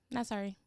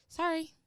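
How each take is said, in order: First: Said in the usual way. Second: Higher, sing-song fake sorry; mock apology. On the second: Shown as a demonstration.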